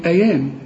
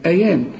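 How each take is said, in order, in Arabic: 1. صوت الياء قصير ومفرد. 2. صوت الياء قصير ومفرد.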